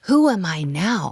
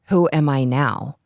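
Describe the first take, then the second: First: The question sounds curious and full of possibility. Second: The question sounds lost and deflated. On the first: The person sees new possibilities ahead. "the same words, but a different energy, a possibility" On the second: The person feels their identity is gone. "he goes"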